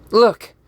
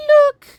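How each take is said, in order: First: Loud, raised cry to break in; interrupting call. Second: Very high, loud squeaked call; high-pitched voice. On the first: Acted. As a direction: cut in sharply, higher and louder. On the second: Pretend. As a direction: squeak it out at the very top. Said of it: "that high-pitched voice".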